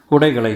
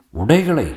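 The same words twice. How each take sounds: First: Said in the usual way. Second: Higher, disbelieving repeat of உடைகளை; shocked echo. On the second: A narrator's reading. Master hears she is undressing, shocked echo. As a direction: echo the word as an appalled question.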